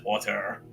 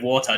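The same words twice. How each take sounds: First: The final R sound is pronounced. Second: The final R sound is dropped. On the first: "just make R sounds" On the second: "instead of not making R sounds"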